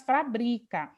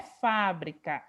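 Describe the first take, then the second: First: Fabrica with stress on BRI, middle syllable; fabrica, acento na sílaba do meio. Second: Fábrica with stress on FÁ, first syllable; fábrica, acento na primeira sílaba. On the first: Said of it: "aqui é apenas fabrica". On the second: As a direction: say fábrica as proparoxytone, FÁ-bri-ca. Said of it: "não é fábrica". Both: Shown as a demonstration.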